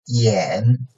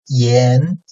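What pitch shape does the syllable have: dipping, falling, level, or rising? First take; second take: dipping; rising. First: The pitch dips low, then rises slightly. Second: The pitch rises from mid to high.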